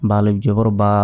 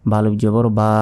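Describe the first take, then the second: No difference in how they are said.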